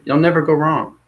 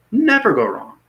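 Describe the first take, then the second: First: Said in the usual way. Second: Never go wrong sung out high; high emphatic repeat. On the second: Shown as a demonstration.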